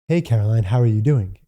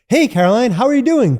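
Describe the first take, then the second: First: The voice is pitched low and relaxed. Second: The voice is pitched high and energetic.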